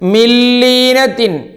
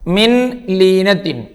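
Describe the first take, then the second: First: The n merges into a doubled l sound. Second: The n is pronounced separately before the l. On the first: The speaker calls it right. "ഇങ്ങനെയാ വായിക്കേണ്ടത്" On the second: The speaker calls it wrong. "നിങ്ങൾ മിൻ ലീനത്തിൻ കാണുന്നില്ലേ?"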